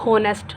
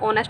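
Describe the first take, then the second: First: The word begins with an h sound. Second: The word begins directly with a vowel. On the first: The speaker calls it wrong. "ना कि आएगा ए होनेस्ट" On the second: The speaker calls it right. "नहीं वो ऑनेस्ट होता है"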